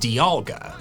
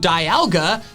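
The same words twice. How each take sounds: First: The first syllable sounds like 'dee'. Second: The first syllable sounds like 'die'. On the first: "The official pronunciation is Dialga" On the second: "my pronunciation Dialga ... its name starts with die"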